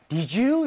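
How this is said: The voice rises at the end.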